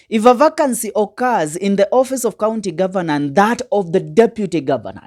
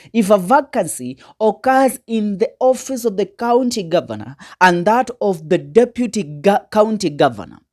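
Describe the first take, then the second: First: Said in the usual way. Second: "occurs" pushed a little higher, phrase read with weight; emphasized reading. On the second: Shown as a demonstration. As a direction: lean on "If a vacancy occurs" to drive the point home. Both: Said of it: "here is where we emphasize".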